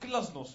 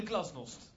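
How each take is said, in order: First: The first G is hard and harsh. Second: The same.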